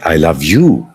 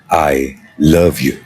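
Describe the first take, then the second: First: The stress falls on the word you. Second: The stress falls on the word love. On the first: You, not someone else, are the one I love. "whom do you love? Then I say" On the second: It expresses the feeling itself from the heart. "when you're conveying a heart's feeling"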